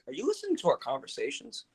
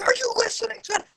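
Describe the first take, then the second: First: It is said quietly in a regular tone. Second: It is screamed loudly.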